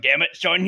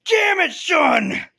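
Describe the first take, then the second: First: Said in the usual way. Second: Loud, high, drawn-out shout; hammed-up angry dad shouting; exasperated yell. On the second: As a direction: yell it after someone who's gone. Retold father yells after vanished son.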